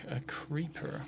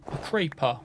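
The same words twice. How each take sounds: First: Said in the usual way. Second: Mock British accent, "creeper" said as "craypah"; British kid. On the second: Gamer mimicking a funny video, British kid accent. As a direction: imitate a British child's "creeper", vowel like "cray". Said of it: "this British kid goes".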